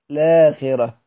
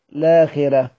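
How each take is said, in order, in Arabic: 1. الكلمة تبدأ مباشرة بصوت اللام. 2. الكلمة تبدأ مباشرة بصوت اللام.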